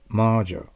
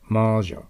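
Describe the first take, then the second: No difference in how they are said.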